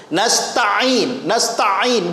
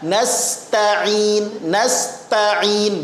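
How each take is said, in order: First: Nasta'in with a pressed, doubled ain. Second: Nasta'in with long ta and an easy ain; ordinary single ain. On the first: Teacher imitates a common mistake, ain wrongly doubled. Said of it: "seperti ada ain tasdid". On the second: Teacher shows the correct reading, ain left ordinary. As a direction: stretch "ta" in "nasta'in", then a single unpressed ain. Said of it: "biasa saja". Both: Shown as a demonstration.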